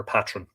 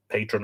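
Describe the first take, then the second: First: Patron as "PAT-run"; short A. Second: Patron as "PAY-trun"; long A. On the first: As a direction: say patron with the A of "cat". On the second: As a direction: say patron with the A of "day". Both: Shown as a demonstration. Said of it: "I presume it's patron rather than patron".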